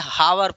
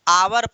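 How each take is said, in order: First: The word begins with an audible h sound. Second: The word begins with a vowel, no h sound. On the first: The speaker calls it wrong. "कुछ लोग इसको गलती से हावर पढ़ते हैं" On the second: The speaker calls it right. "जिसको हम लोग आवर पढ़ते हैं"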